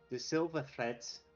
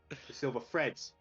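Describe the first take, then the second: First: It is said in a Scouse accent. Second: It is said in a Cockney accent.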